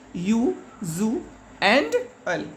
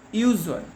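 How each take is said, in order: First: "U, zu and al" as three parts with pauses between; split into syllables. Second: Said in the usual way. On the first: Shown as a demonstration. Teacher showing children usual has three syllables, "U, zu and al" said in parts. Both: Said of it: "usual has three syllables".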